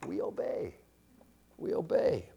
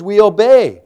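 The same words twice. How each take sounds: First: Very soft, pausing between repeats; hushed reverence. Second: Loud, raised preacher's conclusion; forceful declaration. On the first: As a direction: let it sink in, barely voiced. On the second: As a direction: drive it home at full voice. Forceful conclusion, later repeated softly. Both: Real, not acted.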